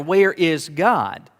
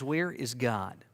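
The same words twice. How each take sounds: First: It is said somewhat louder. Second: It is said at a quieter level.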